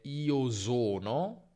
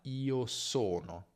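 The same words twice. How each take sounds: First: The s in sono is voiced, buzzing. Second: The s in sono is voiceless, hissing. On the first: The speaker calls it wrong. "attenzione a non dire io sono, che è un errore tipico che fa chi parla tedesco" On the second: The speaker calls it right. "ma io sono"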